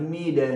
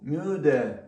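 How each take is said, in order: First: The first vowel is a plain i sound. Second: The first vowel is a rounded ü sound. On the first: The speaker calls it wrong. "Тут не скажеш міде ніяк" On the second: The speaker calls it right. "І тут маємо подібне до ію"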